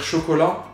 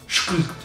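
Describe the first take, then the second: First: The word is said normally, with its vowels. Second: The word is said with only its consonants. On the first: "pour dire chocolat" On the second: "tu dis chkl. Tu parles comme ça"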